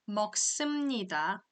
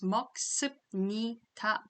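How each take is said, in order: First: The syllable before 니다 ends in an m sound. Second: The syllable before 니다 ends in a b sound. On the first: The speaker calls it right. "Instead, it becomes" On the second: The speaker calls it wrong. "When I read letter by letter, then it becomes"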